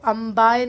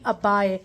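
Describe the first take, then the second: First: The word has an 'm' sound before 'b'. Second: The word has a plain doubled 'b' sound. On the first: The speaker calls it wrong. "अम्बाए नहीं" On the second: The speaker calls it right. "अब्बाए बोला करो"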